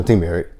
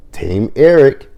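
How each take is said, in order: First: Said in the usual way. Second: Mock cheer. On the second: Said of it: "He's like".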